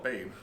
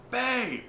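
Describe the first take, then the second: First: Said in the usual way. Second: High, calling "Babe!" across the house; retold yell. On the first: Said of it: "She never yelled". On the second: Wife calling her husband from the back room, sharp high call. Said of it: "I hear my wife yell".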